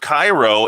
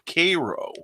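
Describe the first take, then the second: First: It is not pronounced like the syrup name. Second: It is pronounced like the syrup name Karo. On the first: This is the outsider pronunciation. "or instead of Cairo" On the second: This is the local pronunciation. "it's pronounced like the syrup"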